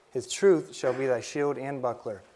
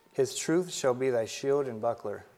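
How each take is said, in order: The two takes are said the same way.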